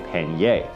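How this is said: It is said the Canadian, French-influenced way.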